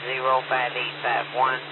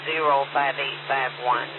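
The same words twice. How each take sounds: The two takes are said the same way.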